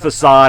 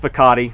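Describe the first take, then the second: First: The word is pronounced in the standard way. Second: The word is pronounced in a distorted way. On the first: The speaker calls it right. "Instead of facade" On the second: The speaker calls it wrong. "intentionally mispronouncing words"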